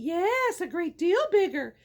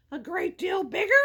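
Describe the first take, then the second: First: "great deal bigger" falling as a firm answer; assuring answer. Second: "bigger" rising as a question; troll's question. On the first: Middle goat answering the troll about his brother, assuring fall. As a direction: confirm it, letting "bigger" drop. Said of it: "said the mid". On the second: Troll asking the middle goat about his brother, questioning rise. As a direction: query it, lifting "bigger" at the end. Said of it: "asked the troll". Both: A narrator's reading.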